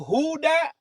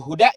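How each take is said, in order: First: The vowel is held long. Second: The vowel is said short. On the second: It means guidance.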